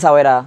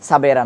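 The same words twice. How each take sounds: First: "সাওয়েরা" with a w glide for the waw. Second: "সাবেরা" with v/b for the waw. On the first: Teacher tests students with the other choice, "সাওয়েরা" with w. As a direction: say "সাওয়েরা" gliding through w, no v/b. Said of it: "ওয়াওটারে আমরা ওয়াও করে পড়তেছি". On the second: Teacher offers students the correct choice, "সাবেরা" with v/b. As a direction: say "সাবেরা" with a consonant v/b, no w glide. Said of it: "ওয়াওটা ভ করে পড়তেছি". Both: Shown as a demonstration.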